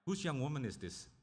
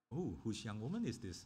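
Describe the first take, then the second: First: It sounds plain and matter-of-fact, without attraction. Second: It sounds like a man smitten with a woman.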